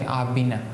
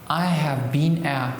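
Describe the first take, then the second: First: The words are reduced and run together. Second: Each word is said carefully and separately.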